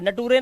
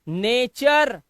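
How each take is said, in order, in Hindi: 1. बीच की ध्वनि सादा t है। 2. बीच की ध्वनि ch है। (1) "नटूरे नहीं" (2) "नेचर चा"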